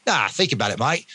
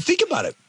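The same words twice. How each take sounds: First: Imitated Australian mate; amateur Australian impression; Australian accent. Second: Said in the usual way. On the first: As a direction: put on a casual Australian accent. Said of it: "I won't do the Australian accent". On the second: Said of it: "I won't do the Australian accent anymore".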